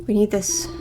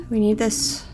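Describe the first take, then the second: No difference in how they are said.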